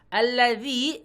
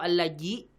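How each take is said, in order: First: The middle consonant is a soft dh sound. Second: The middle consonant is a j sound. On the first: The speaker calls it right. "pastikan pakai zal" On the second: The speaker calls it wrong. "bukan pakai jim atau pakai zai"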